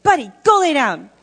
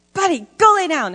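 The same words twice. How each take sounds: First: Loud scold "Buddy, go lay down"; yelling at dog. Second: Put-on "Buddy, go lay down" higher, a child copying the yell; imitating a little boy. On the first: Retold or imitated. Speaker ordering the dog Buddy, loud scold. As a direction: command the dog sharply. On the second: Foster son Dominic copying the yell, higher child voice. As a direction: parrot the scold like a five-year-old. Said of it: "He's like".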